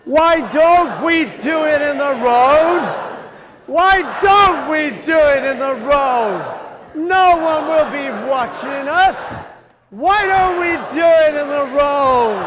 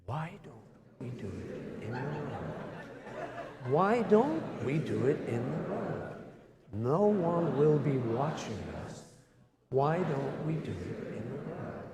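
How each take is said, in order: First: Shouted, much higher, slow group chant; loud like a mad Russian poet. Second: Much softer group chant of the verse; chanted, murmur the verse softly together; quiet chant. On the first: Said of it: "loudly, like a mad Russian poet". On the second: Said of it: "join in quietly with the second verse". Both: Shown as a demonstration.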